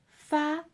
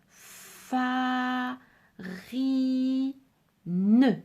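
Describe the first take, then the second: First: The word is said quickly as one unit. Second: The word is broken into separate syllables. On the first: "Tu peux le dire encore plus vite" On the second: "Est-ce que tu peux répéter un peu plus vite?"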